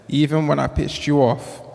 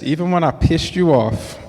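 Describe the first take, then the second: First: It is said in a plain, light voice. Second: It is said with a full, forceful voice.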